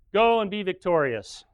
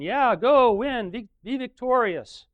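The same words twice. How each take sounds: First: Sarcastic. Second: High, loud mock cheer from the false prophets; cheering yell. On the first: Retold or imitated. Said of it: "he must have said it in some kind of sarcastic tone". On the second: Prophets cheering the king to battle, high mock yell. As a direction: cheer him on like a pep squad. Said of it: "They're all yelling".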